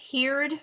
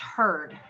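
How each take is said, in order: First: The word does not sound like 'herd'. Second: The word sounds exactly like 'herd'. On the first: The speaker calls it wrong. "if you pronounce this heard, it's okay. I'm going to correct you" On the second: The speaker calls it right. "it's actually pronounced herd. like a herd of cattle"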